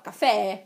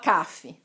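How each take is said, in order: First: The stress is on the last syllable. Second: The stress is on the first syllable. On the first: The speaker calls it right. "última sílaba mais forte" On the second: The speaker calls it wrong. "ninguém fala café"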